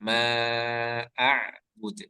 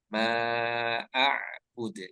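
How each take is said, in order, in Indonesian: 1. Konsonan akhir dilepas dengan pantulan. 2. Konsonan akhir dilepas dengan pantulan.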